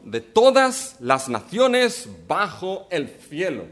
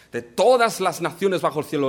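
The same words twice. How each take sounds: First: Slow, every word weighed, stress on todas; slow emphatic reading. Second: Said in the usual way. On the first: Shown as a demonstration. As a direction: let todas las naciones land slowly. Preacher repeats the verse for emphasis. (lectura lenta y enfática, acento en "todas")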